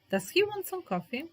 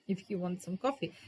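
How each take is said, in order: First: "he" lifted way up in "Does he want some coffee?"; high question. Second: Said in the usual way. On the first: Shown as a demonstration. Teacher turns a statement into a high-pitched question. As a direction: pitch "he" high, then fall. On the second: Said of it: "I wonder".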